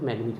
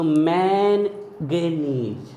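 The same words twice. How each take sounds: First: मैग्नीज said quick and low as mag-neez; silent N. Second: मैनगेनीज hugely stretched, main-ge-neez with both Ns; spelling pronunciation. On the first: Teacher explains N is kept silent, मैग्नीज said short. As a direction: say मैग्नीज short, without the first N. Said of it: "एन silent रखते हैं तो मैग्नीज होता है". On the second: Teacher reads out the spelling, मैनगेनीज very slow with N sounded. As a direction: draw out मैनगेनीज very slowly as spelt. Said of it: "अगर आप spelling देखोगे". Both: Shown as a demonstration.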